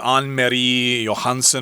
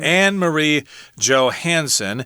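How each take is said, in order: First: The name is said with a Danish-style pronunciation. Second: The name is said with an English pronunciation. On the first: "maybe in Danish you say" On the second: "we're going to go with the uh, English pronunciation here"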